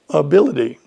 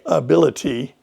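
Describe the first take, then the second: First: The final consonant sounds like a soft D. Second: The final consonant is a clear T sound. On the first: "They're more likely to say ability"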